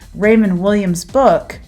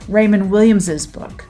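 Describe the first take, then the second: First: Williams ends with a single S sound. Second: Williams ends with an added extra S syllable. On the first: "that's one way to, to say it" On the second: "but I can also say"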